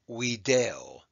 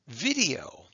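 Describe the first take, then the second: First: The word begins with a W sound. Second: The word begins with a V sound.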